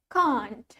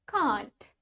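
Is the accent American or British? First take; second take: British; British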